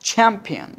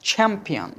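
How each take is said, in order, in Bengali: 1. প্রথম ধ্বনিতে জোরালো বাতাসের ঝলক আছে। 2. প্রথম ধ্বনিতে জোরালো বাতাসের ঝলক আছে।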